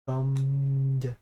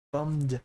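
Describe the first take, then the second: First: BUMMED drawn out long on one level note; deliberate pronunciation. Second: BUMMED said once, fairly short; trying out the word. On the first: Gamer getting dry lips round a word, BUMMED drawn out. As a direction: stretch BUMMED, holding it steady before the final d. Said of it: "There we go, my lips". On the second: Gamer fixing a stumbled word, BUMMED said short. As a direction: say BUMMED briefly, testing the word. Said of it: "my lips were a little dry". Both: Real, not acted.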